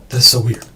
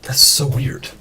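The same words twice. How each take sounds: First: Said in the usual way. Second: Breathy whispered aside to self; whispering. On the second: Real, not acted. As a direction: whisper it under your breath. Muttered aside about mic glitch.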